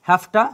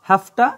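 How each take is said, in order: No difference in how they are said.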